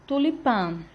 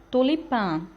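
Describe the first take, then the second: The two takes are said the same way.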